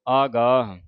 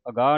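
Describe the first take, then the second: First: The first vowel is long. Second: The first vowel is short. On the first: The speaker calls it right. "ਆਗਾਹ ਐੜੇ ਕਰਨਾ" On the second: The speaker calls it wrong. "ਅਗਾਹ ਨਹੀਂ ਪੜ ਦੇਣਾ"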